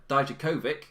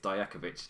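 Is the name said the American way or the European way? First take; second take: American; European. First: All syllables are pronounced hard, American style. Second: The syllables are softer, European style.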